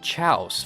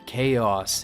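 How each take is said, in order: First: The word begins with a 'ch' sound. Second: The word begins with a 'k' sound. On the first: "I thought it was pronounced chouse" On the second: "I didn't know how to pronounce the word chaos"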